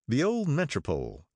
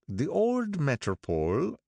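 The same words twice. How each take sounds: First: Said in the usual way. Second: Put-on higher, slow brooding old man's voice; gloomy, slow character voice, pitched up. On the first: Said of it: "I asked". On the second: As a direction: brood over the name like a lost past. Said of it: "brooded Mister Wolfsheim gloomily".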